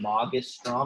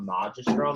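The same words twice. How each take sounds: First: The g is said as a hard g. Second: The g is said as a soft g. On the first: The speaker calls it right. "that is a hard G in magistrum" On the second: The speaker calls it wrong. "It's not magistrum. That sounds weird"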